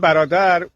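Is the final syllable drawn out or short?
short. The final syllable is said short and plain. This is how Persian speakers say it. "ما میگیم"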